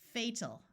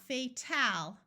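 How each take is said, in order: First: The last syllable has a reduced 'ul' vowel. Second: The last syllable has a clear 'al' vowel. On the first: The speaker calls it right. "it's fatal" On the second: The speaker calls it wrong. "not fatal"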